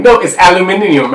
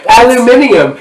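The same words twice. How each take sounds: First: Mock British "aluminium", five syllables; a light British accent on "aluminium". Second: "Aluminium" pitched higher, mocking the extra syllables; teasing British "Aluminium" with a laugh. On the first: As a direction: say "aluminium" the British way, al-yoo-MIN-ee-um. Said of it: "She'd be like". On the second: Shown as a demonstration. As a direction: stretch out "Aluminium" like a Brit, al-yoo-MIN-ee-um. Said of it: "How you add four syllables to the word?".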